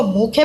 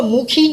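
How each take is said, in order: First: मुखे ending in an "ay" sound; open "ay" ending. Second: मुखी ending in an "ee" sound; long-ee ending. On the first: Teacher giving students the reading, मुखे with final "ay". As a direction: say मुखे with the ye read as "ay". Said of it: "इसको मुखे पढ़ेंगे". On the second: Teacher warning students off a misreading, मुखी with final "ee". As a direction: say मुखी with the small ye read as "ee". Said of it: "इसको मुखी नहीं पढ़ेंगे". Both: Shown as a demonstration.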